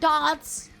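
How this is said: It is said in a posh accent. The speaker calls it wrong. "not dance ... where's the R?"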